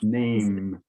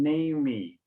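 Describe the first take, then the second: First: The word ends cleanly on the m sound. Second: An extra vowel sound follows the final m. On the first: The speaker calls it right. "But no, it's, it's name. ... silent E" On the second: The speaker calls it wrong. "You gave a little bit of the Brazilian pronunciation"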